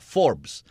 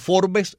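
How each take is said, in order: First: The name is said with an American pronunciation. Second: The name is said with a Spanish-style pronunciation. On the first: It is said the way Americans say it. "como lo pronuncian los americanos" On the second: It is said so Cuban listeners understand it. "si digo Forbes es para que lo entiendan en Cuba"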